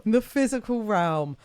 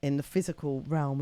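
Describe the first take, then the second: First: Higher, louder playful repeat of the phrase; mock-grand echo. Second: Said in the usual way. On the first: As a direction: put PHYSICAL REALM up in lights, mock-grandly.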